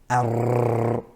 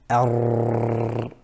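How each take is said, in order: First: The tongue tip vibrates repeatedly in a trill. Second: The tongue tip vibrates repeatedly in a trill.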